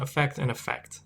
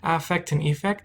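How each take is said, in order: First: The first vowels are reduced and sound alike. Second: The first vowels are said carefully and distinctly.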